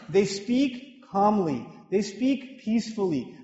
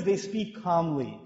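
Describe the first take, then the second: First: Slow, peaceful demonstration of calm speech. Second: Calm, slow delivery. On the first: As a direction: draw out "they speak calmly" gently, slowly. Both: Shown as a demonstration.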